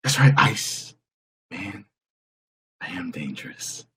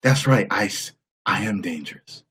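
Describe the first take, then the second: First: Lightly voiced Tom Cruise, fading much softer; a second quieter Cruise attempt; a hint of Tom Cruise, dropping away; Tom Cruise impression. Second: Lightly voiced Tom Cruise, trailing softer; a hint of Tom Cruise bravado; Tom Cruise impression. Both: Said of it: "Here's my impression of Tom Cruise".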